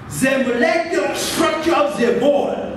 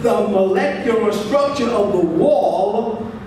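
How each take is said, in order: First: The W in 'wall' sounds Russian-accented. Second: The W in 'wall' sounds like English. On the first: "that W sound, is not pronounced as it's pronounced in English" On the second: "instead of"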